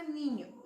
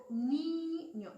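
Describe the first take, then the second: First: Said in the usual way. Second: "niño" with a stretched, louder, higher NI; stress on NI. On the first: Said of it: "En la palabra niño". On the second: Shown as a demonstration. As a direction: hold and hit the first syllable of "niño". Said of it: "la sílaba tónica". ("niño" con la sílaba NI alargada y fuerte)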